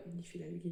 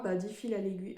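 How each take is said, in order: First: "dix fils à l'aiguille" repeated lower and softer, trailing off; softer, catching her own slip, repeating "dix fils à l'aiguille" low; quiet self-correcting mutter. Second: Said in the usual way. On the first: Real, not acted. Noticing she misspoke about the fabric, repeats it softly and low. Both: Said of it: "n'importe quoi".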